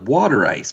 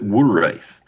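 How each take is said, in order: First: Water is said with a general American pronunciation. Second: Water is said with a local Philadelphia pronunciation. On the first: "they call it water ice" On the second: "but they pronounce it water ice"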